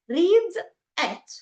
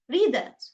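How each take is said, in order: First: The two words are separated with a pause. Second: The two words are linked into one word.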